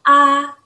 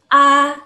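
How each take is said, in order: Both takes have the same delivery.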